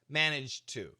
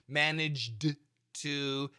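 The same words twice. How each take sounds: First: The phrase is said quickly and smoothly. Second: The phrase is said slowly and carefully. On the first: "I'll say number two fast" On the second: "if I go nice and slow"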